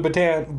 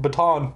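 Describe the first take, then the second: First: "baton" with a flat a, rhyming with tan; anglicized baton. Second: "baton" with an open ah, like ba-TAHN; French-style baton. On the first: Reader mocking the word, "baton" said as ba-TAN. Says word two ways. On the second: Reader correcting himself, "baton" said as ba-TAHN. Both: Shown as a demonstration.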